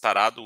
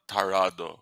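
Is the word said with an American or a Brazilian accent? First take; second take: Brazilian; American. First: It is said with a Brazilian accent. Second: It is said with an American accent. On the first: The speaker calls it right. "It's tarado with the Brazilian accent" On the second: The speaker calls it wrong. "not tarado with the American accent"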